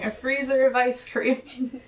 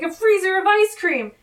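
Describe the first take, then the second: First: Said in the usual way. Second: High, loud imitation of excitement; pumped-up. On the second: Cohost acts out Carlos announcing his dessert island pick, pumped-up. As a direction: exclaim it like a hyped-up character. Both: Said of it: "And he's very pumped about this".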